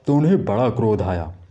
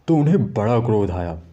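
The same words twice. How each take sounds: Both takes have the same delivery.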